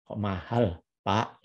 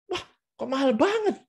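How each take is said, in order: First: "Kok mahal, Pak" in a low, unsurprised monotone; "mahal" kept level, no surprise at all; flat intonation. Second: Very high-pitched astonished exclamation; gasping disbelief at the price, pitch soaring; genuinely surprised intonation. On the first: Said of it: "itu kan datar sekali". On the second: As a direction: really sound shocked by how expensive it is. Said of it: "itu yang Anda harus lakukan". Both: Shown as a demonstration.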